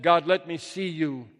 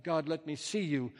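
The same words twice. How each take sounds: First: Raised-voice plea to God; loud plea. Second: Said in the usual way. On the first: Acted. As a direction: call out, louder than usual. Poem's plea after yelling to God.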